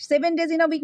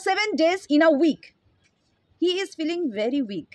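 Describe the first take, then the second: First: Said in the usual way. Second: Very slow, word by word dictation; slow example sentence. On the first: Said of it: "তো মানেটা থেকেই তো বোঝা যাচ্ছে". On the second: Shown as a demonstration. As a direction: read each word slowly so students can write. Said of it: "আহ, মনে করো".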